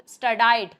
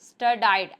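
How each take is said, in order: First: The second syllable sounds like 'die'. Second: The same.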